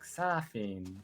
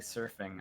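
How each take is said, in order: First: The word is said in a Japanese accent. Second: The word is said in a plain English accent. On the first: "reading things in like a Japanese accent" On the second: "I can't just say surfing"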